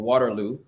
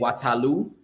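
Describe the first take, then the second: First: It is said in an American accent. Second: It is said in the local Sierra Leonean way.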